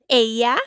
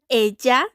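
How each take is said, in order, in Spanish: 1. La LL suena como un sonido ee corto. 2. La LL suena como un sonido dj. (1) "con sonido de I" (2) "con sonido de una D más J"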